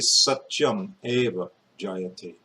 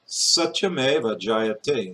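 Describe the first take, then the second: First: The first two words are said separately. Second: The final consonant joins onto the next word. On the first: The speaker calls it wrong. "I don't say" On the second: The speaker calls it right. "Same thing"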